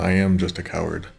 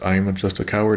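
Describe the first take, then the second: First: The verb am is said in full with stress. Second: The verb is contracted and unstressed.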